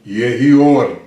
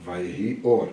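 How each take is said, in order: First: A touch more weight and volume, proclaiming; a hint of a booming divine voice; voice of God. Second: Lightly voiced narrator, calm and low. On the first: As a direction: speak it lightly as God commanding light. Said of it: "a voz de Deus". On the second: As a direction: lower and softer, telling the story. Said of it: "Volta pro narrador". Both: Shown as a demonstration.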